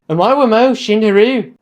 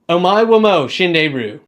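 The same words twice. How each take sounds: First: It is said in an Irish accent. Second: It is said in an American accent.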